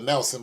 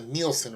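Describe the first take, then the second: First: The name begins with a short 'Nel' sound. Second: The name begins with a long 'Neel' sound. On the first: The speaker calls it wrong. "I called it the Nelson" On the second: The speaker calls it right. "it's actually pronounced the Nielsen ratings"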